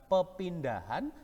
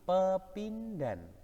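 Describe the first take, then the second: First: The word is said with four syllables. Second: The word is said with three syllables. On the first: The speaker calls it wrong. "anak-anak biasanya sering salah. Bukan pepindahan" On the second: The speaker calls it right. "tapi pepindhan"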